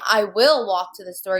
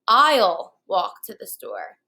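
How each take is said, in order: First: The words 'I will' are said in full. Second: The words 'I will' are contracted to 'I'll'. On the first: "Instead of saying" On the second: "you could say"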